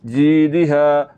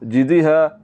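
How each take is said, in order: First: The first vowel is held long. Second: The first vowel is cut short. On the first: The speaker calls it right. "जीम को लंबा करना चाहिए" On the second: The speaker calls it wrong. "आप सिर्फ जीम को पढ़ रहे हैं, या को आप खा रहे हैं"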